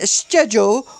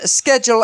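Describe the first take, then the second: First: It is said with a British pronunciation. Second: It is said with a non-British pronunciation. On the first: "what sounded like a British accent" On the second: "as you may pronounce it"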